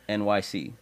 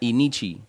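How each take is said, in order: First: The name sounds like 'en-why-see'. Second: The name sounds like 'eh-nee-chee'. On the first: The speaker calls it right. "the correct pronunciation" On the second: The speaker calls it wrong. "We used to pronounce that Enichi"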